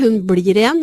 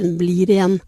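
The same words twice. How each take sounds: First: The L is a thick, flapped L. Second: The L is a thin, clear L. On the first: "Han sier ikke «hun blir igjen»" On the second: "han har veldig mange tynne L-er"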